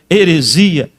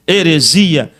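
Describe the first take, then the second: No difference in how they are said.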